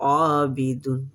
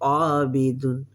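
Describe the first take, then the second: No difference in how they are said.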